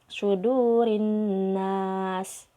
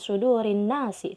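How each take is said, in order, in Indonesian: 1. Kata terakhir berakhir dengan konsonan mati. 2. Kata terakhir berakhir dengan vokal i. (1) "tapi sudurin nas" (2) "bukan sudurin nasi"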